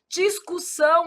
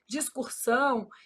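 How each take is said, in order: First: There is no R sound before the S. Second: An R sound is added before the S. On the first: The speaker calls it right. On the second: The speaker calls it wrong.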